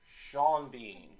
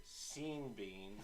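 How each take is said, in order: First: Sean said "Shawn", Bean said "Been"; "Sean Bean" as Shawn Been, slowly. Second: "Scene Bean" with a long ee, "Seen Been"; slow, soft "Scene Bean". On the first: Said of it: "do you say it". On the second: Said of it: "or do you say it". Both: Shown as a demonstration.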